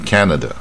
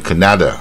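First: The stress is on the first syllable. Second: The stress is on the second syllable. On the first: The speaker calls it right. "第一个音节Canada" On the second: The speaker calls it wrong. "不要念成第二个音节Canada"

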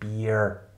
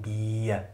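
First: A final r sound is pronounced. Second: No final r sound is pronounced. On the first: The speaker calls it wrong. "also nicht bier" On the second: The speaker calls it right. "wird aber gesprochen bier"

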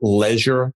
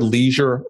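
First: It is said with a British pronunciation. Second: It is said with an American pronunciation. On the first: The speaker calls it wrong. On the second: The speaker calls it right.

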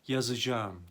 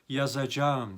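First: The vowel narrows and the soft g is dropped. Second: Every letter is pronounced fully, including the g. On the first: This is how the word is read aloud. "okurken yazacağım deriz" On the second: This is how the word is written. "diye yazarız"

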